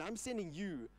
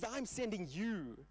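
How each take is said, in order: First: "sending" carries the weight, falling; stress on sending. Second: "I'm" leaned on, slow and falling; stress on I'm. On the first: Preacher repeating God's words, stress on "sending". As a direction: lean on "sending" in "I'm sending you". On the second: Preacher voicing God, stress on "I'm". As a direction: put the weight on "I'm sending you". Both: Shown as a demonstration. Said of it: "That's what he tells Gideon".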